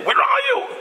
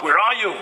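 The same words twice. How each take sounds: First: Yelling. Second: Said in the usual way. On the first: Retold or imitated. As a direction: shout at the friend who is late again. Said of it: "You start yelling at the guy".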